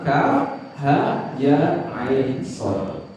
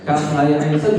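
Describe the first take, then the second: First: "Kaf ha ya ain sad" slow, each name apart; letter by letter. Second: Said in the usual way. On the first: Shown as a demonstration. Preacher showing how hijaiyah letters are read, "Kaf ha ya ain sad" slowly spelled out. Repeats the letters separately to teach.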